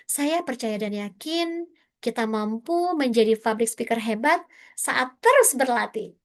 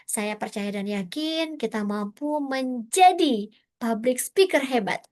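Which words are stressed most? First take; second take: terus berlatih; speaker hebat. First: The emphasis falls on saat terus berlatih. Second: The emphasis falls on public speaker hebat. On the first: "kita mau menekankannya di saat terus berlatih" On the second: "Menjadi public speaker hebat"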